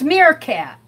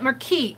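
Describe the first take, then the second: First: The word ends with a 'cat' sound. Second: The word ends with a 'keet' sound. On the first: The speaker calls it right. "It's Meerkat" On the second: The speaker calls it wrong. "I call it Merkeet. I was mispronouncing it"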